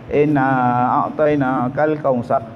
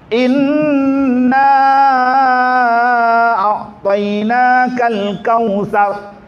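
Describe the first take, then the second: First: It is recited plainly, without a melodious voice. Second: It is recited melodiously, with drawn-out nasal sounds. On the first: The speaker calls it wrong. "Ada yang baca Quran lesen suara dia" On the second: The speaker calls it right. "Cantikkan dengungnya"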